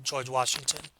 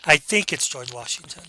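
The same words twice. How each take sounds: First: Confident, flat out. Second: Unsure answer with a rising end; hedging. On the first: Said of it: "should answer that just flat out". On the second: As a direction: hedge it, taking away the power. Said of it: "using a hedge phrase". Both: Shown as a demonstration.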